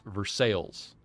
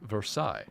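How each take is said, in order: First: The name is pronounced the local American way. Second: The name is pronounced the French way. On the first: This is the name of the town in Ohio. "in Ohio, the town is Versailles" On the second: This is the name of the palace in France. "in France, it is Versailles"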